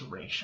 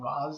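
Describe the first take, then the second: First: The name ends with a 'sh' sound. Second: The name ends with a 'z' sound. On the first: The speaker calls it right. "it's Raish" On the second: The speaker calls it wrong. "They call him Ra's al Ghul"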